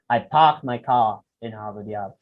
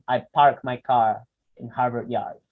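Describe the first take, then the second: First: The R is dropped and the vowels lengthened. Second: The R sounds are pronounced, American style.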